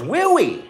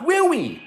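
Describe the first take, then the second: First: A high, lightly voiced old biker asking "Will we?"; Gary's way of talking. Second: A high, light mock of old Gary saying "Will we?"; Gary's way of talking. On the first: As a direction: mimic Gary with a higher, teasing "Will we?". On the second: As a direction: repeat Gary's "Will we?" higher, with a teasing edge. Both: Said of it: "that's how he talked".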